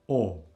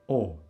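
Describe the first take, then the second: First: The vowel is said the Albanian way. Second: The same.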